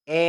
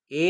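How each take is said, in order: First: એ said with an open "a" as in "bat"; open vowel. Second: એ said as a narrow "ay" sound; close vowel. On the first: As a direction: stretch એ wide open, like English "æ". (એ પહોળા ઉચ્ચારે) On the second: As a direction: keep એ narrow, like the e in "bet". (એ સાંકડા ઉચ્ચારે) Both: Shown as a demonstration. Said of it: "બંને વચ્ચે તફાવત જાણજો".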